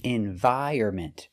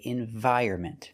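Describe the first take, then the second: No difference in how they are said.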